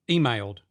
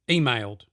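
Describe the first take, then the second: Both takes have the same delivery.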